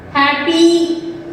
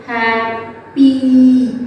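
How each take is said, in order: First: Said in the usual way. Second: Happy stretched out very slowly; slow broken-up word. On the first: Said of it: "let's say happy". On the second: Shown as a demonstration. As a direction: break happy into slow sounds. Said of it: "You just slowly break that word".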